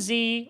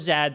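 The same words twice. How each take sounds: First: The letter is said the non-Canadian way. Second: The letter is said the Canadian way.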